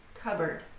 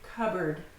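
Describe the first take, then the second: First: The P sound is silent before the B. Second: The same.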